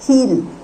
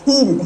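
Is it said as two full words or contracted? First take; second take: contracted; contracted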